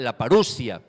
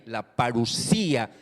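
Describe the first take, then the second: First: The 'si' syllable is not stressed. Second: The stress falls on the 'si' syllable. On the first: The speaker calls it wrong. "algunos lo llaman la parusia" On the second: The speaker calls it right. "pero es con tilde en la i"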